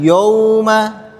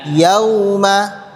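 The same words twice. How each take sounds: First: The ya sound is heavy and thick. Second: The ya sound is light and thin. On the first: The speaker calls it wrong. "jangan sampai huruf ya-nya dibaca tebal" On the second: The speaker calls it right. "tetap ya"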